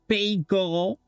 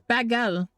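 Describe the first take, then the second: First: The second syllable sounds like 'goal'. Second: The second syllable sounds like 'gull'. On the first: The speaker calls it wrong. "not bagel. We're not eating goals in here" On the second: The speaker calls it right. "It's bagel"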